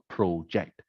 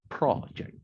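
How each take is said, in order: First: It is said with the verb's stress pattern. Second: It is said with the noun's stress pattern. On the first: It names an action, projecting your voice. The speaker calls it wrong. "not project" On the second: It names a thing, a speech project. The speaker calls it right. "the noun, like a speech project, is pronounced project"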